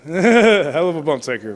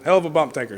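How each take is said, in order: First: Laughing through it, louder and slower; amused, laughing repeat. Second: Said in the usual way. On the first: Real, not acted. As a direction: chuckle the phrase out as you repeat it.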